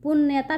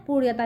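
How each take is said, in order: First: पुण्यता said as "punnyata" with a doubled n; पुण्यता with a clear n sound; read with n sound. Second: पुण्यता said as "puṛyata" with a flapped ड़ sound; पुण्यता with the ड़ sound in place of n; read with ड़ sound. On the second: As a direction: say पुण्यता with a retroflex flap, "puṛyata". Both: Shown as a demonstration. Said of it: "इसको दो तरीके से पढ़ सकते हैं".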